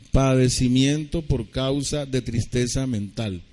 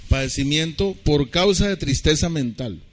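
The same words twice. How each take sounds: First: Slowed down so it can be written down; slow dictation. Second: Said in the usual way. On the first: Shown as a demonstration. Pastor dictating the definition to listeners, slowly. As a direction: dictate each word slowly. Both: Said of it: "me toca deletrearles".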